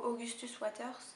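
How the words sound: The name is said with a French accent. This is the speaker's own natural way. "je le dis de la manière le, le plus naturelle possible pour moi"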